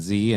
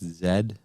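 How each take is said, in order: First: The letter is pronounced as zee. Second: The letter is pronounced as zed. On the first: This is the American way of saying it. "we call it Z" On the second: This is the British way of saying it. "it's normally it's Z"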